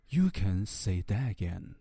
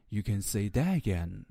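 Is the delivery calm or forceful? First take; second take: calm; calm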